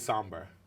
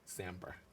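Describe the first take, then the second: First: The first vowel sounds like 'saw'. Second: The first vowel sounds like 'sam'. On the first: The speaker calls it wrong. "I didn't say somber" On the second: The speaker calls it right. "I said that right this time"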